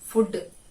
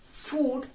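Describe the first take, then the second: First: It is said in a Malayali English accent. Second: It is said in a British RP accent. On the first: "Malayalis pronounce the word as food" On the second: "in English R P, we pronounce the word"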